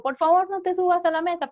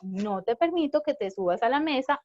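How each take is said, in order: First: Raised, higher call across the room; calling from afar. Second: Calm, firm words said up close. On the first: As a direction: call it out from a distance to the child. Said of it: "pero estoy lejos". (llamado en voz alta desde lejos) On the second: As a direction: speak it near the child, steady and calm. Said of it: "voy cerca de él y le digo". (firme y tranquilo, de cerca) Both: Shown as a demonstration.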